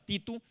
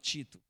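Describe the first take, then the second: First: It is said in the speaker's own accent. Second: It is said in a São Paulo accent.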